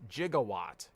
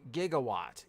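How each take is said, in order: First: "Gigawatt" with a soft G, like "jigawatt"; soft-G pronunciation. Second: "Gigawatt" with a hard G, as in "give"; hard-G pronunciation. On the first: Shown as a demonstration. Streamer corrects himself to the movie's way, "Gigawatt" said with a J sound. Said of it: "correctly pronounced". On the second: Real, not acted. Streamer asks himself about a card pull, "Gigawatt" with hard G. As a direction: say "Gigawatt" starting with a hard G sound. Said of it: "Or more p-, correctly pronounced".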